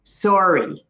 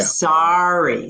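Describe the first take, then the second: First: "Sorry" with a closed, rounded o like sore; Canadian sorry. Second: "Sorry" with an open ah sound, "sahry"; American sorry. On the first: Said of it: "It's that same pronunciation". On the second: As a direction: open the vowel: "Sorry" as in New York. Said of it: "It's more open". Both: Shown as a demonstration.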